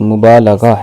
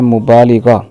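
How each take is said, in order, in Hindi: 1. 'l' के बाद का स्वर 'a' की आवाज़ है। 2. 'l' के बाद का स्वर 'i' की आवाज़ है। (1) "दुरुस्त लफ्ज़" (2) "लफ्ज़ बोलते हैं"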